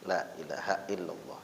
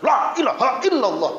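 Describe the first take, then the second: First: It is said lazily and sleepily, with low energy. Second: It is said eagerly and loudly, with high energy. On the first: The speaker is reluctant and drowsy. The speaker calls it wrong. "jangan males banget ... Sambil ngantuk" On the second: The speaker is wholehearted and devout. The speaker calls it right. "ada yang semangat banget"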